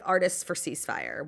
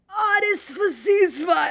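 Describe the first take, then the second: First: It is said in a normal voice. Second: It is said in a weird, mocking imitated voice.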